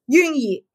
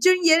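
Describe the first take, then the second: First: The name begins with a 'y' sound. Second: The name begins with a 'j'-like sound. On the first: The speaker calls it wrong. "decía Junyi, eh, la J como Y" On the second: The speaker calls it right. "en vez de decir Junyi"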